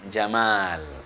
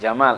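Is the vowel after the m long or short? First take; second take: long; short. First: The vowel after the m is held long. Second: The vowel after the m is kept short. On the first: It means beauty. The speaker calls it right. "syaratnya mimnya yang panjang" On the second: It means camel. The speaker calls it wrong. "kalau pendek Jamal itu onta"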